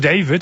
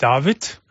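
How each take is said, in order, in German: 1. Der Name wird auf Englisch ausgesprochen. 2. Der Name wird auf Deutsch ausgesprochen. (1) "Warum David" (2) "und nicht David"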